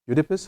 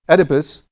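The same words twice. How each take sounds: First: The name is pronounced with a French-influenced sound. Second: The name is pronounced with an English sound. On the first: The speaker calls it wrong. "I'm probably not saying it right in English because I'm influenced by the French" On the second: The speaker calls it right. "thank you"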